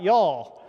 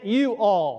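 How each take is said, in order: First: It is contracted into one southern-sounding word. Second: It is said as two separate words. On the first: It is the casual southern word for you. "the one word y'all from the Tennessee southern accent" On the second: It means in every one of you. "but it's you all"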